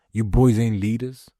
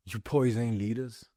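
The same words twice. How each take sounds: First: Louder emphatic call-out. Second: Soft, slow, cold delivery; quiet contempt. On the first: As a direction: call them out to their face. Repeated line, loud take. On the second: Repeated line, quiet take. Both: Real, not acted.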